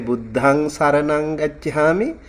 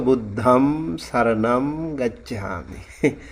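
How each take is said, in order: First: The nasal endings sound like ng. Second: The nasal endings sound like m. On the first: "ang sound" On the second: "m sound"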